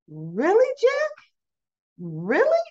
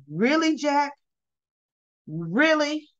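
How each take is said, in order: First: Hammed-up disbelief, swooping steeply upward; Tracy, incredulous. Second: Restrained disbelief, slightly raised pitch; two separate, pointed questions with long pauses; Nikki, incredulous. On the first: Tracy beside Jack, exaggerated incredulity. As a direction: let each question soar into a mock squeal. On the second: Retold or imitated. Nikki to Jack over his concern, mildly incredulous.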